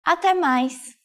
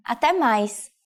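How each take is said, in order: First: Até mais repeated higher and brighter. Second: Said in the usual way. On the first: Shown as a demonstration. Teacher repeating the phrase higher for learners. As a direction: lift the pitch on Até mais. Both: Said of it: "You can also say".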